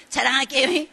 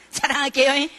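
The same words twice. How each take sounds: First: Playful rising "자랑할게요" repeated with the same lilt; teasing boast again. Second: Playful rising "자랑할게요" announcing a boast; teasing boast. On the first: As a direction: keep teasing the endless build-up. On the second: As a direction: tease that he is about to brag. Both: Retold or imitated. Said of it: "계속 아직 자랑도 못하면서 자랑".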